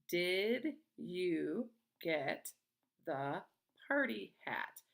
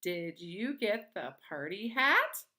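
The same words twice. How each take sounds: First: Very slow, pause after each word; word-by-word reading. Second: Rising sharply on "hat", louder and slower; question intonation. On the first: Teacher reading a sentence to young pupils, slowly word by word. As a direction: read each word separately, falling on "hat". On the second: Teacher showing pupils how a question sounds, voice rising on "hat". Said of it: "make our voice go up at the end". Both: Shown as a demonstration.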